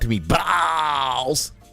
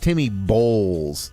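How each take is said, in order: First: The surname's vowel sounds like 'ball'. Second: The surname's vowel sounds like 'bowl'. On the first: The speaker calls it wrong. "Not Timmy Balls" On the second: The speaker calls it right. "How I would pronounce that"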